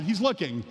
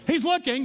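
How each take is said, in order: First: Said in the usual way. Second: Excited "He's looking" repeat; emphatic repeat. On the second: Shown as a demonstration. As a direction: punch "He's looking" the second time.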